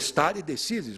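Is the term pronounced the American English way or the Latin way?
Latin. It is pronounced with a Latin pronunciation. The speaker calls it right.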